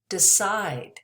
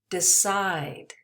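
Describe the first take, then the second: The two takes are said the same way.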